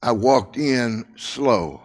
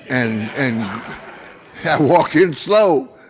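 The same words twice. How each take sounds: First: Slow, drawn-out telling of the walk. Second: Repeating it through a real laugh. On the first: Shown as a demonstration. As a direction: drag the words like walking in slowly. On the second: Real, not acted. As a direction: laugh it out at the memory.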